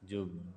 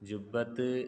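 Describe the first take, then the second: First: The word ends with a vowel. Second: The word ends with a t sound. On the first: The speaker calls it right. "പിന്നെ എങ്ങനെയാ പറയണ്ടേ?" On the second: The speaker calls it wrong. "ജുബ്ബത്ത് എന്ന് പറയലില്ല"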